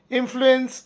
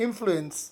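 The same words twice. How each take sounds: First: influence carefully enunciated for learners; clear model word. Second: Said in the usual way. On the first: Shown as a demonstration. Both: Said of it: "ಪ್ರಭಾವ ಬೀರು".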